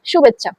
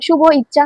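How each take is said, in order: First: শুভেচ্ছা said as one word, শুভ and ইচ্ছা merged with e; joined right way. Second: শুভ ইচ্ছা said as two separate words, a break between শুভ and ইচ্ছা; split wrong way. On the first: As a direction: run শুভেচ্ছা together as the correct form. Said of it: "উচ্চারণ করতে হবে কি". (শুভেচ্ছা একসাথে, সঠিক উচ্চারণ) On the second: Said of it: "এরকম বলতে পারবো না". (শুভ ইচ্ছা আলাদা করে, ভুল উচ্চারণ) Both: Shown as a demonstration.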